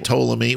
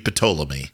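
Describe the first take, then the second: First: The initial P is silent. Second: The initial P is pronounced. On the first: This is the English way of saying it. "You say Ptolemy" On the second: This is the Greek way of saying it. "In Greek, it would be Ptolemy. It would you pronounce the P"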